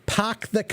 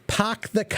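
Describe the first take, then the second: First: It is said in a thick Boston accent. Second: The same.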